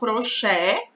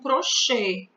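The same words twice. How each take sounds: First: The final vowel is an open E. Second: The final vowel is a closed E. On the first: "com um E aberto" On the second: "com um E fechado"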